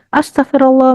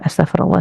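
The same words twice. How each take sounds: First: It is said angrily, scolding. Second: It is said calmly and sincerely.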